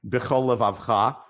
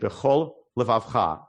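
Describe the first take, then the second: First: The two words run together without a break. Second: There is a slight break between the words. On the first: The speaker calls it wrong. "You don't say" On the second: The speaker calls it right. "you say"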